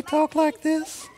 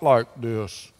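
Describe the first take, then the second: First: Put-on falsetto, far above usual; high-pitched voice. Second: Put-on deep voice, dropping downward. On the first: Pastor asking children if Jesus talked differently, high-pitched voice. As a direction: leap up into a silly high disguise. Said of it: "if it was high pitch". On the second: Pastor asking children if Jesus talked differently, mock deep voice. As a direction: sink into a pretend deep voice. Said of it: "if it was a deep voice". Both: Shown as a demonstration.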